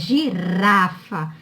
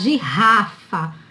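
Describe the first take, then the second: First: The middle R is a weak, tapped sound. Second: The middle R is a strong, throaty sound. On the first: The speaker calls it right. "A palavra é girafa. Então, só coloca um R... para ter esse som fraco" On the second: The speaker calls it wrong. "Se tivesse dois R's, ia ficar girafa"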